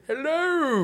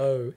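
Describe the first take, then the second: First: High, falling hello; high voice test. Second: Said in the usual way. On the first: Shown as a demonstration. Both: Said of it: "cover your ears".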